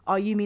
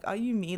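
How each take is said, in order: First: It sounds like a genuine, curious question. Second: It sounds like an amazed exclamation.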